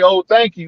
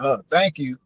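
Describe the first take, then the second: First: The thanks sounds warm and friendly. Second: The thanks sounds wary and suspicious.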